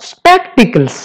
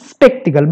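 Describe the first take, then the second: First: Spectacles said slowly, ending s clearly sounded; correct plural. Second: Spectacle said without the final s; wrong singular. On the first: Teacher correcting students: slow spectacles with the final s. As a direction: stretch out spectacles and land the final s. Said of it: "but spectacles". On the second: Teacher warning students against the mistake: spectacle without final s. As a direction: say spectacle, dropping the last s. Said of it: "এনেকে নকবা যে". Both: Shown as a demonstration.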